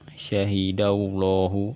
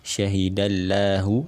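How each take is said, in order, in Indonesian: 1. Huruf L dibaca tebal. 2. Huruf L dibaca tipis. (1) "kita baca dengan menebalkan lamnya" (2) "Ini adalah cara membaca yang keliru"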